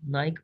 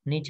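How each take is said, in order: First: The word ends with a k sound. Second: The word ends with a ch sound. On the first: "नाइक पढ़ते हैं इसको" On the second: "निच भी कुछ लोग पढ़ते हैं इसको"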